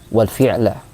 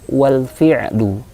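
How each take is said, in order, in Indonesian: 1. Kata terakhir berakhir dengan vokal 'a'. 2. Kata terakhir berakhir dengan vokal 'u'. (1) "ada kesalahan ya" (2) "yang betul adalah wal fi'lu"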